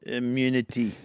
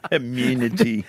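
First: Put-on clipped South African accent, low and quiet. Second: Put-on South African accent, low and drawn out. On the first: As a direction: quote it like a South African villain. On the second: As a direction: try the South African line once more. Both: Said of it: "can we hear your South African accent again".

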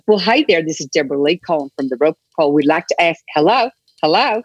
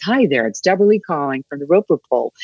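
First: Put-on a bright American phone caller's greeting in an American accent. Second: Put-on a lightly done American accent at an even pitch. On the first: Aussie drama student on a phone-survey job, in an American accent. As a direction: sell the survey call in a practised American accent. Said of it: "I would just do all my accents". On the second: Practising for phone-survey callers, a lightly done American accent. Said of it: "just practice my American accent".

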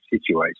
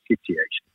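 First: Said in the usual way. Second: "situation" said the producer's Scottish way; Scottish-style SITUATION. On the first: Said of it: "He never said situation". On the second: Shown as a demonstration. Showing how the producer said it, Scottish "situation". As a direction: say "situation" as a Scotsman would. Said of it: "he said situation".

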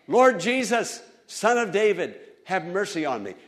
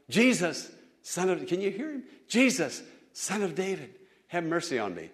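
First: Loud, higher plea to Jesus; crying out. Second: Half-call the plea, held back; mild calling out. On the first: Blind beggar begs Jesus for mercy, crying out loud. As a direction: call out for mercy with all he has. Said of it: "blind Bartimaeus cried out". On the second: Old man calls to passing Jesus, mild calling out. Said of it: "this old man calling out". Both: Retold or imitated.

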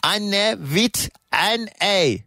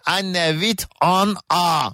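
First: "Anne with N A" said slowly, letter by letter; spelling it out. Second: "Anne with an A" said slowly, letter by letter; spelling it out. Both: Shown as a demonstration. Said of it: "Direkt yazılışını okuyorum arkadaşlar".

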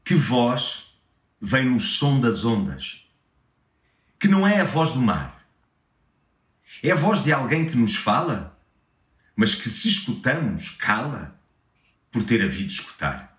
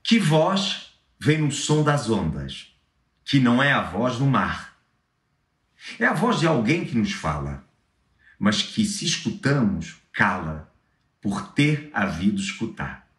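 First: Poem read in Lisbon Portuguese; European Portuguese accent. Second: Poem read in Brazilian Portuguese; Brazilian Portuguese accent. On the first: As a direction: read it with clipped Portuguese vowels. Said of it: "agora em português de Portugal". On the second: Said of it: "uma em, com sotaque brasileiro". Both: Shown as a demonstration.

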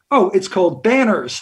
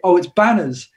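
First: the band name with an American R; slight American accent. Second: Put-on band name in the speaker's own English accent. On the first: Shown as a demonstration. British singer demonstrating his band name, slight American accent. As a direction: put on a light American accent to be understood. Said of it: "put on a slightly American accent". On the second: British singer naming his band to Americans, English accent. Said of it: "I've got such an English accent".

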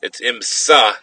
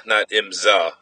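First: Imsa said with a crisp s sound; corrected pronunciation. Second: Imsa said with a z sound, imzah; Wisconsin pronunciation. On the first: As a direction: imsa with s, not z. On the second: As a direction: imsa with a buzzing z, Milwaukee style. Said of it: "That's my Wisconsin accent". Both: Shown as a demonstration.

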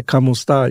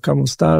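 First: "Como esta?" said as a Filipino greeting, kʰʌmo stɑɹ. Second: "Como esta?" again, rising on esta; "Como esta?" with a rising end; Filipino greeting. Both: Shown as a demonstration. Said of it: "in that Filipino language".

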